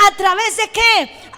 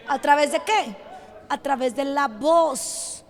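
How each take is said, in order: First: Said in the usual way. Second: Low, soft rhetorical question and answer; subdued, lower-pitched preacher's aside; hushed repeat. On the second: Real, not acted. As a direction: drop right down for emphasis. Same question repeated in hushed drop.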